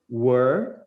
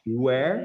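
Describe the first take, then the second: First: Were said short as "wer", rising at the end; were pronounced. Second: Where said alone with a rise at the end; Where held on its own, rising, to contrast with were; where pronounced. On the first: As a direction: say Were as the past of be, set against where. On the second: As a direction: say Where as the question word, set against were. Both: Shown as a demonstration. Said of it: "dá pra ver bem a diferença das duas pronúncias".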